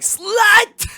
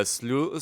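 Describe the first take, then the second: First: "Slut!" blurted very high and loud; comic outburst of "Slut!", pronounced as spelt; mock misreading. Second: "slu-" said with a long oo and no final t; "slu-" in an ordinary voice, rhyming with too; supposed pronunciation. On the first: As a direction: shout "Slut!" with a short u as in cut. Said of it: "we see that word and it's like". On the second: Shown as a demonstration. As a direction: say "slu-" like slew. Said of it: "I think it's supposed to be pronounced".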